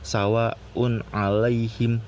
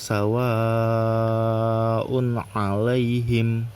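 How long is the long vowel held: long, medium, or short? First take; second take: short; long. First: The long vowel is held for one beat. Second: The long vowel is held for four or five beats. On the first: The speaker calls it wrong. "satu rokat" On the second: The speaker calls it right. "dibacanya empat atau lima rokat"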